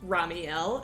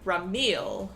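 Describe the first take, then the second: First: The i and e are said as two vowels. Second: The i and e merge into one vowel. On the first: The speaker calls it right. "we pronounce it like Ramiel" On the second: The speaker calls it wrong. "instead of Ramil"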